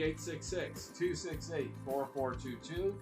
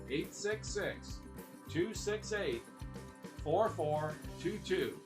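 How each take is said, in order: First: The number is read at a fast pace. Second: The number is read at a slow pace. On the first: The speaker calls it wrong. "I've been told I go too fast" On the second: The speaker calls it right. "I'm going to say it slow"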